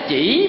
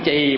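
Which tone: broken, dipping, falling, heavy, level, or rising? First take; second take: dipping; falling. First: The pitch dips and then rises. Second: The pitch falls low. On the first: "bỏ dấu hỏi thành chỉ" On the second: "bỏ dấu quyền thành chì"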